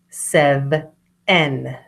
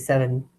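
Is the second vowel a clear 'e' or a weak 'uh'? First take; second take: clear e; weak uh. First: The second vowel is a clear e sound. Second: The second vowel is a weak uh sound. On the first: This shows how the word is spelled. "so that they're clear that that is an E" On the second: This is the everyday way to say it. "It's a schwa, it's like an uh sound"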